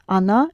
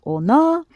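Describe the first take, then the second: First: Said in the usual way. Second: "ona" said with a full O as written; spelling pronunciation. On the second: Shown as a demonstration. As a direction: sound out "ona" letter by letter, with O not A. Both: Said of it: "она is spelled ona".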